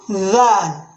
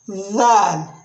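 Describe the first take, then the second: First: It starts with a voiced th sound. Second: It starts with a voiced th sound.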